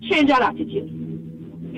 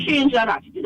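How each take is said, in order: First: Slow, soft, unvoiced warning; quiet emphatic warning. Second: Said in the usual way. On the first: Real, not acted. Caller warning the rude young girl, soft and slow.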